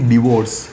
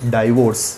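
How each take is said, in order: First: The first syllable has a short 'dih' vowel. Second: The first syllable has a long 'dye' vowel. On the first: The speaker calls it right. "और इससे हम कहेंगे डिवोर्स" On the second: The speaker calls it wrong. "ना कि डाइवोर्स"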